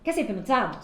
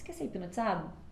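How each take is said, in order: First: The voice is strong, firm and confident. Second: The voice is weak, hesitant and insecure. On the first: The speaker is sure of themselves. The speaker calls it right. "Diferente de" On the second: The speaker lacks confidence. The speaker calls it wrong. "uma voz assim fraquinha, uma voz de insegurança"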